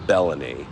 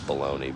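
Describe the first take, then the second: First: The name does not sound like baloney. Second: The name sounds like the word baloney.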